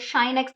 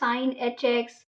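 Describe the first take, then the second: First: It is said as a single syllable, 'shine'. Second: It is said as 'sine', then the letter h. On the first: "शाइन x भी बोलते हैं" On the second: "अलग अलग तरीके से pronounce होते हैं"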